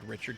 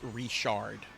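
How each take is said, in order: First: It is said with an English pronunciation. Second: It is said with a French pronunciation. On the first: This is how most people would read it. "most people would say Richard" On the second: This is how locals say it. "here it's pronounced Richard"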